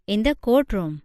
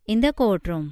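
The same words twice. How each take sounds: The two takes are said the same way.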